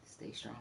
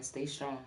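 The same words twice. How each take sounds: First: Whispered softly. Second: Said in the usual way. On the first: Shown as a demonstration. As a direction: breathe it out with no voice. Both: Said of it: "repeated as a whisper".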